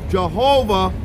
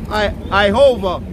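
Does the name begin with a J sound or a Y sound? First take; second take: J sound; Y sound. First: The name begins with a J sound. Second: The name begins with a Y-like sound. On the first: The speaker calls it wrong. "And it's not" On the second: The speaker calls it right. "there's no J"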